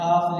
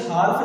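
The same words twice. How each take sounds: First: Said in the usual way. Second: हाफ with the silent L wrongly sounded; mispronounced हाफ, L audible; wrong pronunciation. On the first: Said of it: "क्या लिखा है बेटा". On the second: Shown as a demonstration. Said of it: "नहीं पढ़ेंगे बेटा".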